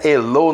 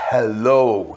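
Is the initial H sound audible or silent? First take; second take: silent; audible. First: It begins without a breathy H sound. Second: It begins with a breathy H sound. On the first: The speaker calls it wrong. "não é hello" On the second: The speaker calls it right. "É o H aspirado"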